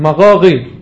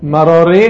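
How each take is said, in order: First: The R is a rasping sound in the throat. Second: The R is made with the tongue tip. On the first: The speaker calls it wrong. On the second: The speaker calls it right.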